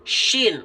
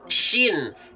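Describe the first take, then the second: First: The sh sound is made with rounded lips. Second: The sh sound is made with relaxed lips. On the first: The speaker calls it wrong. "Jangan sampai jadi" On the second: The speaker calls it right. "Bibirnya biasa"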